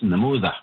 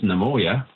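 First: It is said with a TH sound. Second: It is said with a Y sound.

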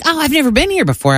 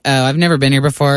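First: It sounds sincere and genuine. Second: It sounds snooty, with an attitude.

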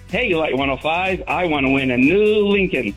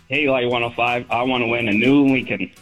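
First: It is said with lively excitement. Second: It is said flatly, without enthusiasm.

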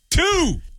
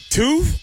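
First: The voice falls at the end, said confidently. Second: The voice rises at the end, like a question.

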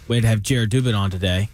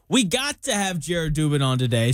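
First: It is said in a mean tone. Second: It is said in a friendly tone.

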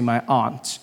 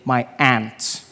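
First: It is said in the speaker's own non-American accent. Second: It is said in an American accent, like ant.

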